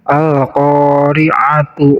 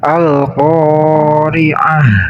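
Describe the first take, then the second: First: The word ends with a t sound and vowel. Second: The word ends with an h sound. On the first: The reader continues into the next word. "apabila kita membacanya di wasal, maka ini ta-nya kembali menjadi ta" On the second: The reader stops at the end of the word. "Apabila kita waqaf di sini atau kita membacanya di waqaf, maka ta ini berubah menjadi ha"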